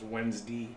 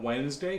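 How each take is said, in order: First: It is said in a Western Pennsylvania accent. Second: It is said in a standard accent.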